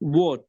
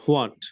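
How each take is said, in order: First: The word begins directly with a w sound. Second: The word begins with a breathy h sound. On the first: The speaker calls it right. "ওয়াট এর উচ্চারণ হবে ওয়াট" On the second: The speaker calls it wrong. "Not হোয়াট"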